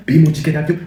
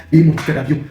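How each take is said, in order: Both takes have the same delivery.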